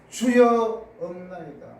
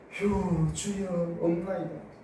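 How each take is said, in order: First: It is said plainly, without a sigh. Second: It is said with a heavy sigh.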